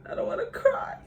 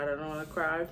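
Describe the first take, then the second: First: High, choked breath holding back crying; trying hard not to cry; fighting tears. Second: Said in the usual way. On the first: Real, not acted.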